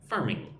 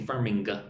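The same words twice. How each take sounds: First: The final G is soft, without a hard stop. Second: The final G is hard, with an audible stop. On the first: The speaker calls it right. "It's just not a hard G, right? Like farming, right? It's mm" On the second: The speaker calls it wrong. "We don't say farming"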